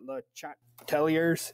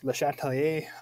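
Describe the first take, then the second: First: The name is pronounced with English sounds. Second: The name is pronounced with French sounds. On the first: The speaker calls it wrong. "It's not" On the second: The speaker calls it right. "make sure to have that French French pronunciation"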